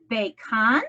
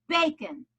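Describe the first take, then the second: First: "bacon" wrongly stressed bay-KON, rising at the end; stress on second syllable. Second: "bacon" stressed BAY-kun, falling away; stress on first syllable. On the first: Teacher showing what she does not say, bacon as bay-KON. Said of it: "I do not say that". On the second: Teacher giving the correct accent, bacon as BAY-kun. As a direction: punch a high BAY in "bacon", weak second syllable. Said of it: "I say". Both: Shown as a demonstration.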